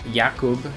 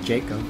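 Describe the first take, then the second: First: The name is said the German or Polish way. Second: The name is said the usual English way.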